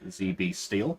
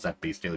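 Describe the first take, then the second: First: The letter Z is said as zee. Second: The letter Z is said as zed.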